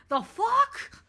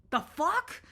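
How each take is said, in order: First: "The fuck?" much higher and louder, rising, near a whimper; second, bigger take of the same shocked question; rattled disbelief. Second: Higher, baffled "The fuck?" with a rising end; comic double-take at a dark thought; startled. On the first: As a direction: escalate the shock on the repeat. Repeats reaction, more rattled. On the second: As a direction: caught off guard by your own mind. Startled by own intrusive thought. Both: Pretend.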